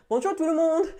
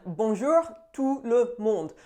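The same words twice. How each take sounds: First: "Bonjour tout le monde" said higher and louder, "monde" stressed; bright greeting. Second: Slow French "Bonjour tout le monde", "Bonjour" stretched. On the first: Vlogger opening her video, higher cheerful French greeting. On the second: Vlogger greeting viewers in French, slow and careful. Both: Shown as a demonstration. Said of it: "I'm just saying".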